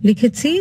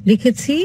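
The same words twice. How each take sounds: No difference in how they are said.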